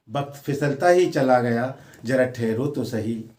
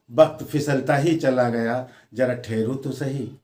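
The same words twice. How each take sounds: The two takes are said the same way.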